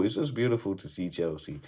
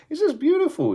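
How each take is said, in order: First: Said in the usual way. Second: A much higher, louder burst of delight; gleeful squeal. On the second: Real, not acted. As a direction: squeak it out in pure joy. Joy at Chelsea high in table.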